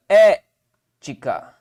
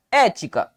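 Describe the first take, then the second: First: "Ética" slow, a loud É, pause, then low ti-ca; syllable separation. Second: Said in the usual way. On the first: Shown as a demonstration. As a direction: punch the É of "Ética" and detach the rest. ("Ética" separando sílabas, com É forte e pausa) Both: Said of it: "qual a separação de ética?".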